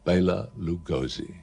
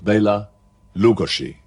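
First: The name gets a simplified anglicized pronunciation. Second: The name keeps its original native pronunciation. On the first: This is the popular form the public adopted. "he became immortalized under the name of Bela Lugosi" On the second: This is how the name is really pronounced. "that's the correct way of pronouncing it"

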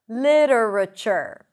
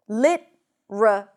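First: It has four syllables with a flapped T. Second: It has three syllables with no flapped T. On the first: "Li-ra, with a flap T. Ra, another reduced syllable. And chur" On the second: "we don't have the flap T because we drop one syllable"

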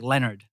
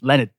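First: It is said in an American accent. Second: It is said in an Australian accent.

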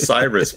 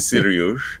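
First: The name has its usual English pronunciation. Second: The name has its Persian pronunciation. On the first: "His name is Cyrus Pittman" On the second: "But in Iran, you say Sirius"

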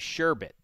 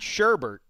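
First: The second syllable has no r sound. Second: The second syllable has an r sound. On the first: The speaker calls it right. "There is no second R" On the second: The speaker calls it wrong. "It is not sherbet like most people say"

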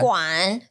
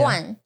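First: The syllable has a low dipping tone. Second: The syllable has a sharply falling tone. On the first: It means a tube. "third tone 是 tube" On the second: It means a can or container. "that's fourth tone"

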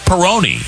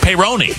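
First: It sounds like the beer name Peroni. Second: It does not sound like the beer name. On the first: The speaker calls it wrong. "it's not Peyronie" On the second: The speaker calls it right. "It's Peyronie"

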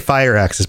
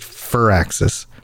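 First: The first syllable sounds like the word fire. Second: The first syllable does not sound like fire. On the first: The speaker calls it wrong. "I always want to say Firaxis because that sounds badass" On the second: The speaker calls it right. "I believe it's just Firaxis because there's not fire"

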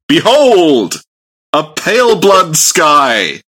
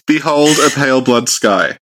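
First: The line is said as a loud exclamation. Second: The line is said in a calmer, plainer way.

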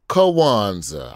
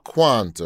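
First: The word is said with an extra sound added. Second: The word is said without an extra sound.

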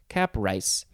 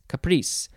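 First: The word is said as 'cap' plus 'rice'. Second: The word ends with a 'reese' sound. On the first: The speaker calls it wrong. "It looks like cap rice" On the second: The speaker calls it right. "But it's caprice"

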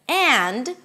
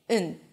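First: The word is said in full with a clear vowel and final d. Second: The word is said reduced to a short n sound. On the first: "instead of and" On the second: "we say n. Notice that I also drop the d"

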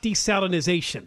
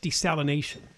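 First: The word has an extra z syllable. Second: The word has no z syllable. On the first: The speaker calls it wrong. "I hear people pronounce it that way" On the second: The speaker calls it right. "It's just desalination. There's no Z in there"

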